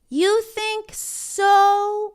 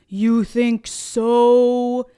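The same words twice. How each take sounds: First: It is said in an ordinary speaking voice. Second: It is said in a deeper, lower voice.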